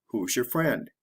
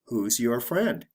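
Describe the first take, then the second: First: Who's your friend linked into whozyer friend; quick reduced your; said the fast natural way. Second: Who's your friend with your said full and separate; careful slow reading. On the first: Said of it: "The fast way". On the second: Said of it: "The slow way". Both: Shown as a demonstration.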